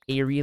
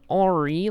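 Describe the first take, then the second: First: The first vowel sounds like 'air' in airplane. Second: The first vowel sounds like a pirate's 'arr'. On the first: "Airy like airplane" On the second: "Ori like a pirate"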